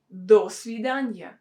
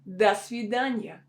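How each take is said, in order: First: The first word sounds like full 'do'. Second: The first word sounds like 'da'. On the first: The speaker calls it wrong. "we don't say до свидания ... It will sound really unnatural" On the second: The speaker calls it right. "should be pronounced as да, because it's not stressed"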